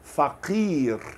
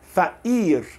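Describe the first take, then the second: First: The middle consonant is a deep q sound. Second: The middle consonant is a glottal stop. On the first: This is the original standard form. "Originalmente, pobre em árabe se escreve com Q. Então, se escreve faqir. Q, q" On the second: This is the Levantine dialect form. "a maioria dos libaneses, palestinos também, sírios, gostam de dizer"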